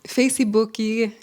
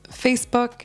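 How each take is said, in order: First: The word ends with an extra vowel sound. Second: The word ends abruptly on its final consonant. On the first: The speaker calls it wrong. "adding an extra syllable or an extra sound to the end" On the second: The speaker calls it right. "We pronounce it more abruptly"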